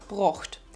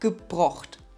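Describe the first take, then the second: First: The word starts directly without a ge syllable. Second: The word begins with an audible ge syllable. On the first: This is how the dialect says it. The speaker calls it right. "brocht und nicht gebrocht" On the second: This is not how the dialect says it. The speaker calls it wrong. "und nicht gebrocht"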